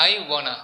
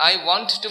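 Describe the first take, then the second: First: "I wanna" with want to merged into WON-nuh; contracted form. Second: Said in the usual way. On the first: Shown as a demonstration. Teacher giving the short equivalent, contracted "I wanna". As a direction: run it together, "I wanna". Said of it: "সংক্ষিপ্ত করে কি বলে". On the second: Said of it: "মানে কি".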